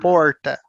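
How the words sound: It is said with a retroflex R.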